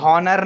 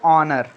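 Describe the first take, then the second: First: The word begins with an h sound. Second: The word begins with a vowel sound. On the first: The speaker calls it wrong. "कभी भी हॉनर नहीं पढ़ेंगे इसको" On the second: The speaker calls it right.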